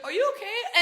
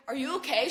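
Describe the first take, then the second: First: Put-on a light French accent on are you okay; mock French flight attendant, a bit higher. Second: Said in the usual way. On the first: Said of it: "She only spoke French". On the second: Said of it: "she's like".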